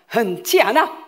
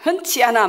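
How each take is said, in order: First: It is said in a lively, energetic way. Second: It is said in a dull, flat way. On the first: The speaker calls it right. "이래야지" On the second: The speaker calls it wrong. "막 그게 좀 재미없잖아요"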